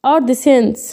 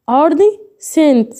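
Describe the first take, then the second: First: Said in the usual way. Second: أرض سنت split in two, slowly, with a pause before سنت; slow word demonstration. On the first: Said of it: "فهو الأرض سنت". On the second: Shown as a demonstration. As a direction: say أرض, pause, then a clear سنت with no k sound. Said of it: "هو أنا هنا لما نطقتش السي".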